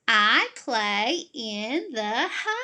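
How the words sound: The voice goes up toward the end. "This is what it would look like if it did go up"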